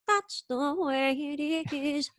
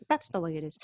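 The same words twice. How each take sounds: First: Slow, high, stretched French-Canadian lilt. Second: Said in the usual way. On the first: Retold or imitated. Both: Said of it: "or she says it".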